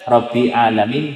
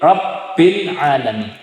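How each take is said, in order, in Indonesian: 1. Bunyi b pendek, tidak dirangkap. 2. Bunyi b dirangkap dan ditahan.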